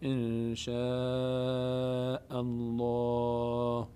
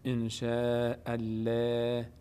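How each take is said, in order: First: The L in Allah sounds heavy and full. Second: The L in Allah sounds light and thin. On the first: The speaker calls it right. "درستش چیه؟" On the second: The speaker calls it wrong. "نمیگیم ان شاء الله، این اشتباهه"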